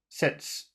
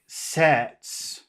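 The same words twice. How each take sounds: First: The vowel is short and clipped. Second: The vowel is long and drawn out. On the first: The speaker calls it wrong. "Little, little" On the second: The speaker calls it right.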